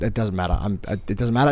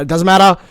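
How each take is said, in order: First: Said in the usual way. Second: Louder, snapping it out; exasperated. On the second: Real, not acted. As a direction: cut the topic off, higher and louder. Repeats dismissively, then louder.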